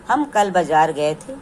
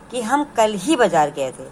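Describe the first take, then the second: First: Said in the usual way. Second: ही stressed in "हम कल ही बाज़ार गए थे", lifting कल. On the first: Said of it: "साधारण वाक्य में कह सकते हैं". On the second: Shown as a demonstration. Teacher contrasting with the plain sentence, stressing ही. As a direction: lean on ही to make कल stand out. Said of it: "कल शब्द पर विशेष बल दे रहा है".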